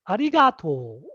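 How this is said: It has the Nagoya regional pitch pattern. "in Nagoya, people say ari arigato"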